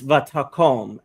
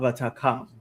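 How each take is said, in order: First: The final vowel sounds like 'o'. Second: The final vowel sounds like 'a'. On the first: The speaker calls it right. "it's vatakom" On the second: The speaker calls it wrong. "it's not vatakam"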